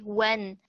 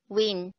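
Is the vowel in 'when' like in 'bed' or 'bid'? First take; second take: bed; bid. First: The vowel sounds like the one in 'bed'. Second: The vowel sounds like the one in 'bid'. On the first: "it's like when" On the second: "and what we say, win"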